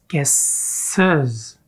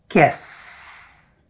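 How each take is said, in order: First: An extra syllable is added before the final S. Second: The plural S merges into the word's final S. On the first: The speaker calls it right. "But with ES, guesses. Whoa, that works" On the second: The speaker calls it wrong. "with just S, guess. It doesn't work, we can't hear it"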